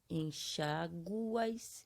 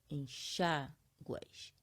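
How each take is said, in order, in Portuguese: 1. O acento cai na vogal U. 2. O acento cai na vogal A. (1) "a sílaba mais forte está sendo aonde? Está sendo no U" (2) "a sílaba mais forte tiver no A ou no I"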